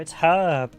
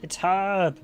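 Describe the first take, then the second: Both takes have the same delivery.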